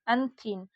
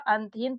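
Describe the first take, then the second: First: An aspirated dental th follows the n. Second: A plain t, a vowel, then h follow. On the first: The speaker calls it wrong. "इसको क्या पढ़ेंगे आप लोग अंथीन" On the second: The speaker calls it right. "ये शब्द सही निकल रहा है अंतहीन"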